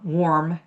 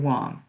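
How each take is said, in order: First: The R after the vowel is pronounced. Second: The R after the vowel is silent. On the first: The speaker calls it wrong. "So it's not uh" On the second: The speaker calls it right. "It's going to be warm. You're softening the R"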